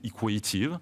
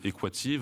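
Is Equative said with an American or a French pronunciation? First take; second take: American; French. First: It is said with an American pronunciation, long A. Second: It is said with a French pronunciation. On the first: "en américain, on va essayer de le prononcer Equative, avec un A long" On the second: "en français, on va le prononcer Equative"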